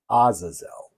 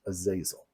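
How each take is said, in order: First: Azazel said AH-zuh-zel; first pronunciation of Azazel. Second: Azazel said uh-ZAY-zul; alternative pronunciation. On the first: Lecturer naming Semyaza's helper, Azazel as AH-zuh-zel. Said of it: "as he's sometimes pronounced". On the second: Lecturer giving the other pronunciation, Azazel as uh-ZAY-zul. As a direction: stress a long "zay" in the middle of Azazel. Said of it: "or as he's sometimes pronounced". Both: Shown as a demonstration.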